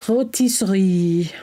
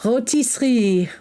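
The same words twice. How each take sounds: First: "Rotisserie" drawn out slowly, French style, no R; exaggerated French accent, savoring "Rotisserie"; slower French accent. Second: Put-on playful French accent on "Rotisserie", on request. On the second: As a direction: say "Rotisserie" the French way, dropped R, "oh-tee-see". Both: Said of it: "say rotisserie with a French accent".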